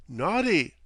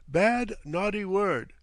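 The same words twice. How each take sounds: First: Mock scolding, calm and sing-song; serene reproach. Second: Slow, higher, wagging-finger reproof; mock scolding. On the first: Captain serenely chiding his guest in Cockney. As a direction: scold him like a child. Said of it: "said the captain serenely". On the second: Captain teasingly reproving his guest, slowly. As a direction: tut at him like a nanny. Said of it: "wagging a reproving forefinger". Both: A narrator's reading.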